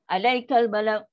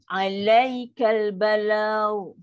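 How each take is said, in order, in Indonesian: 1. Bunyi 'lai' dipotong pendek dan terdengar keras. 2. Bunyi 'lai' turun lalu mengalir halus dan lembut. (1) "kan dah bunyi keras sebab apa? Kita dah caras" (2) "Macam ni"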